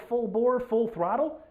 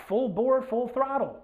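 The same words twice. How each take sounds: The two takes are said the same way.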